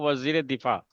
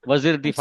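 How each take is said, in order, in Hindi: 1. 'e' स्वर दोनों शब्दों को जोड़ता है। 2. दोनों शब्दों को जोड़ने वाला कोई स्वर नहीं है। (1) "पढ़ना आपको" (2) "नहीं पढ़ना है"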